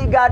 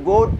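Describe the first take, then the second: First: The vowel sounds like the one in 'god'. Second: The vowel sounds like the one in 'good'. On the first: This is the common reading. The speaker calls it wrong. "hindi God ang pagbasa dito" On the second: This is the reading by the spelling rule. The speaker calls it right. "kung i-roll ng grammar na English"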